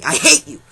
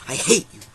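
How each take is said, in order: First: A loud, high-pitched mock "I hate you" with the word "hate" punched. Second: Said in the usual way. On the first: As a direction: yell "I hate you" in play, leaning hard on "hate". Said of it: "says line twice, differently". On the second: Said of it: "same line repeated".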